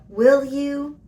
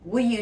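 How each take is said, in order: First: The two words are full, clear and emphasized. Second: The two words are reduced and run together. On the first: The speaker is happy about the offer. "we hear that nice and clear" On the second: It is an ordinary request. "the connected speech pronunciation is will you"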